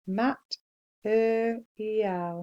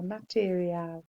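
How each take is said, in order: First: Mat-er-ial said very slowly in three parts; syllable split. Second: Said in the usual way. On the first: Shown as a demonstration.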